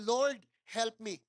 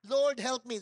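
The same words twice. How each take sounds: First: Slow, earnest whispered-style plea; quiet prayer. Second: Loud cry for help like a drowning man; desperate cry. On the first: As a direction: pray it simply and slowly from the heart. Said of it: "Sabi ko lang". (mabagal at taimtim na dasal) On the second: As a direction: call out as if sinking in the water. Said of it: "Parang si Peter nung lumulubog siya sa tubig". (malakas na sigaw ng paghingi ng tulong) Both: Retold or imitated.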